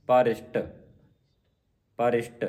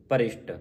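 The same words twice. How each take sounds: First: ਪਰਿਸ਼ਟ broken as pa, risht; first syllable separated. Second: ਪਰਿਸ਼ਟ run together as one word; syllables joined. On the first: Teacher breaking up the word for learners, ਪਰਿਸ਼ਟ in parts. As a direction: set the opening syllable apart. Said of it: "ਇਹ ਵੱਖਰਾ ਕਰ ਦਿਓ". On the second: Teacher rejoining the word for learners, ਪਰਿਸ਼ਟ said whole. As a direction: blend ਪਰਿਸ਼ਟ quickly into one. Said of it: "ਫਿਰ ਇਹਨੂੰ ਇਕੱਠਾ ਜੋੜ ਦਿਓ". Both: Shown as a demonstration.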